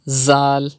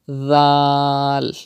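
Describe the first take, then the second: First: The first consonant has a sharp whistling buzz. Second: The first consonant is soft, without any whistle. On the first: The speaker calls it wrong. "If you read it like this, ... it's not correct" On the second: The speaker calls it right. "without whistle sound, softly, like this"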